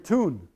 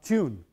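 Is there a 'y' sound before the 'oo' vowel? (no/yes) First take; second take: no; yes. First: The vowel has no y glide before it. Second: The vowel has a y glide before it. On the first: This is how New Yorkers say it. "but you'll hear tune" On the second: New Yorkers do not say it this way. "not tune"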